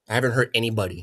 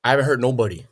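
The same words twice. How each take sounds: First: "I haven't hurt anybody." said as the correction of "nobody"; corrected grammar. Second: Said in the usual way. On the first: Shown as a demonstration. Correcting his own grammar for the people watching. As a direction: fix "nobody" to "anybody", carefully. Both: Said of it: "do you want me to talk properly".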